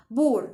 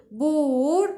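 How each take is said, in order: First: Said in the usual way. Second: بور drawn out slowly as if split; stretched out. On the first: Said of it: "ينفع أقول بور". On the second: Shown as a demonstration. Teacher tests whether poor can be split. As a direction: drag بور into two parts. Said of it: "لا، ما ينفعش أجزأها".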